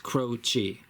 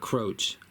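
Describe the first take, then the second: First: The name ends with a vowel sound. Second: The name ends with a consonant sound. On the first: The speaker calls it right. "it's Croce" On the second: The speaker calls it wrong. "It's not Croach"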